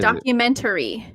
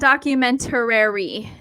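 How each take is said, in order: First: No extra r sound follows the t. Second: An extra r sound follows the t. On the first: The speaker calls it right. "It's just documentary" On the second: The speaker calls it wrong. "It's not documentary"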